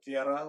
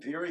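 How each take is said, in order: First: The name has a non-American pronunciation. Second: The name has an American pronunciation. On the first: "which is the correct way to say it" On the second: "the American Vera"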